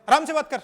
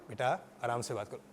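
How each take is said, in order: First: High, loud mock yell; shouting. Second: Low, soft, gentle parent; calm a child with a hushed request; friendly tone. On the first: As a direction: shout the order as a hypocritical demo. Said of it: "चिल्ला कर". (चिल्लाकर डाँटने का नाटक) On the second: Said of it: "आपकी tone इतनी matter करती है". (प्यार से, धीमी और नीची आवाज़ में) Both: Shown as a demonstration.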